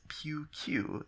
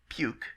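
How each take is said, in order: First: The name is said in two syllables, pew-cue. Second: The name is said in one syllable, puke. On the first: The speaker calls it right. "they would prefer if I pronounced this player's name as Pew-Q" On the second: The speaker calls it wrong. "instead of Puke"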